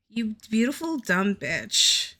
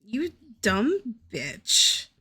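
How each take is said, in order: First: Beautiful stretched out affectionately; affectionate exasperated self-scolding; fond exasperated scold. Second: You dumb bitch, slowly drawn out; slow self-scolding in exasperation; slow exasperated scold. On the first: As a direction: lean on beautiful, half fond. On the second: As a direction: drag out every word, exasperated. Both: Real, not acted. Scolding herself over ruined art.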